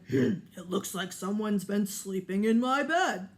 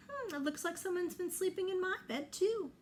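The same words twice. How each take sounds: First: Louder, big papa bear grumble. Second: Higher, quicker mama bear voice; light mother bear echoing papa. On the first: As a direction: play the big bear finding his bed used. Papa Bear voiced in story. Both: Acted.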